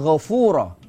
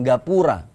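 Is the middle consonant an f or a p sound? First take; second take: f; p. First: The middle consonant is an f sound. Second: The middle consonant is a p sound. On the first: "disebut dengan Ghafura" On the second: "orang Jawa dengan dialek alaminya"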